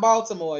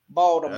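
First: The middle consonant is a clear T sound. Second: The middle consonant is a D sound. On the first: The speaker calls it wrong. "Not Baltimore" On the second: The speaker calls it right. "no T, it's D"

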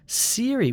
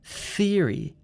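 First: The word begins with an s sound. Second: The word begins with a th sound. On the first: The speaker calls it wrong. "which sounds like an S sound. That's also wrong" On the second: The speaker calls it right. "You need to poke out your tongue and say theory"

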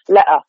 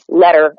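First: The middle consonant is a glottal stop. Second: The middle consonant is a soft d sound. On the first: "make it with the glottal, which is the back of the tongue, stopping the sound" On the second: "as we would say with a D, with the tip of our tongue"

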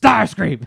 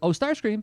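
First: The name is shouted in a menacing tone. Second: The name is said calmly and plainly.

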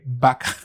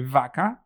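First: The word starts with a B sound. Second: The word starts with a V sound. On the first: This is how Venezuelans say it. "We say vaca. ... With a B" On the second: This is how most Spanish speakers say it. "in any other country, they'll say vaca"

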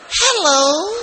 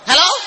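First: It is said in a gentle, soft tone. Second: It is said in a harsh, sharp tone.

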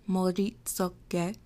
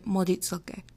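First: The word is said slowly and carefully. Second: The word is said quickly. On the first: "if you want to be careful with your pronunciation, then just say it slowly" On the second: "if you're talking really fast, then you can say"

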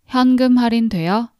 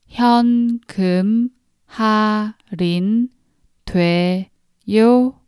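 First: It is said fast. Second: It is said slowly.

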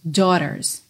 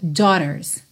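First: The t is a soft flap like r. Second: The same.

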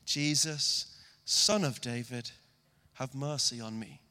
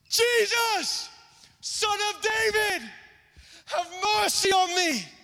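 First: It is said quietly and calmly. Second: It is shouted loudly.

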